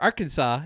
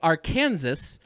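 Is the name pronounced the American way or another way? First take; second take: American; other. First: The name is said the way Americans say it. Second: The name is said in a non-American way.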